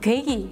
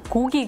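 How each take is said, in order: First: The first vowel takes an added 'i' sound. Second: The first vowel is a plain 'o' sound.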